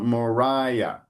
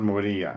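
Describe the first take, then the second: First: The name is said with English-style pronunciation. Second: The name is said with Portuguese-style pronunciation. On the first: The speaker calls it right. "it's also Moriah" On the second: The speaker calls it wrong. "not Moria"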